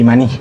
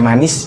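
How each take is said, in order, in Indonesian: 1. Kata ini diakhiri bunyi h. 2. Kata ini diakhiri bunyi s. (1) "biasanya diganti jadi H" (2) "Kalau belakangnya S"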